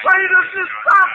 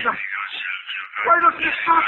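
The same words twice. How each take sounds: First: Much higher and louder, cracking with panic; panicked scream. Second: Low tormented moan. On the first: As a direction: break into a terrified shriek. Tormented by the voice. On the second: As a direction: lower and slow, dragged out in anguish. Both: Acted.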